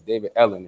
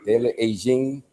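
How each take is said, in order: First: The name is said with an English pronunciation. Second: The name is said with a Spanish pronunciation. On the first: "in regular English" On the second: "as you pronounce it in Spanish"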